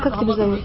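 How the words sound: The question sounds curt, brusque and rude. The speaker shows no respect for the person asked. The speaker calls it wrong. "Нет смирения"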